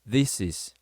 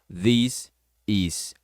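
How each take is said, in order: First: The s sound runs straight into is. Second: The two words are said separately. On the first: The speaker calls it right. "você vai juntar o S com o is" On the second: The speaker calls it wrong. "e não"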